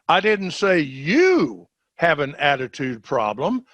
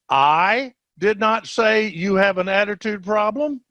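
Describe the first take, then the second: First: The stress is on "you". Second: The stress is on "I".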